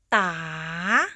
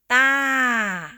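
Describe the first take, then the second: First: The pitch rises across the syllable. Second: The pitch falls across the syllable. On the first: "Rising tone" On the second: "Falling tone"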